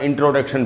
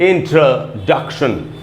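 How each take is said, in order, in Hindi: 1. 'duc' अक्षर पर न ज़ोर है, न उसे लंबा बोला जाता है। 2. 'duc' अक्षर पर ज़ोर है और उसे लंबा बोला जाता है। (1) "इसका उच्चारण इंट्रोडक्शन बिल्कुल नहीं होगा" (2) "यहाँ पर स्ट्रेस है"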